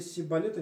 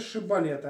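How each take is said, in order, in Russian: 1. Слово начинается со звука 's'. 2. Слово начинается со звука 'sh'. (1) "не могли выговорить ше" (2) "скажи шибалета"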